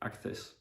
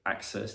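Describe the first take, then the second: First: The c is said as a th sound. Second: The c is said as an s sound. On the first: The speaker calls it wrong. "they say access" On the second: The speaker calls it right. "instead of access"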